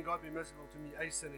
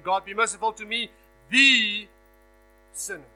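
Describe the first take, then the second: First: Said in the usual way. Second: "the" punched hard and loud; stress on the. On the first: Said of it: "He's not saying". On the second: Shown as a demonstration. Preacher correcting the article, punching "the". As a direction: lean heavily on "the", not "a". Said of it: "He's saying".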